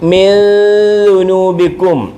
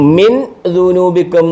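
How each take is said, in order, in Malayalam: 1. n ദീർഘമായ നാസിക ശബ്ദത്തിൽ മറഞ്ഞിരിക്കുന്നു. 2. n വ്യക്തമായും ഹ്രസ്വമായും ഉച്ചരിക്കപ്പെടുന്നു. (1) "ഇച്ചിരി നേരം സമയമെടുത്ത് നീട്ടി പറയണം" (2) "എന്ന് പറയരുത്"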